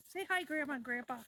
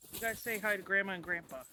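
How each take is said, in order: First: Put-on high sing-song baby talk. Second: Said in the usual way. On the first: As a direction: coo it in a high voice. Talks for the dogs.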